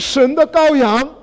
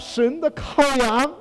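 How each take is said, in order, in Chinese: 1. 最后一个词读作 gaoyang。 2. 最后一个词读作 kaoyang。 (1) "不是神的羔羊" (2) "我说的是看呐、啊、神的羔羊"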